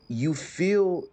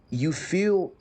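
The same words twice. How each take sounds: The two takes are said the same way.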